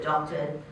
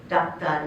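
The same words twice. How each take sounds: First: "doctor" said the English way as dok-ter, with the r; plain English "doctor", dɔktə˞; English pronunciation. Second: "doctor" said the Bengali way as dakta, open a, no final r; the Bengali loanword "doctor", lower and slower; Bengali pronunciation. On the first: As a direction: give the English original of "doctor". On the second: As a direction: say "doctor" like a Bengali speaker, dak-ta. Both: Shown as a demonstration. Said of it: "Pronounced not necessarily the same way".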